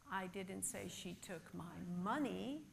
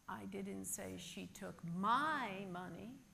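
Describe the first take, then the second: First: The stress falls on the word money. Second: The stress falls on the word my. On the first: She may have taken something else. "but possibly she took something else" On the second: She may have taken someone else's. "but perhaps she took someone else's"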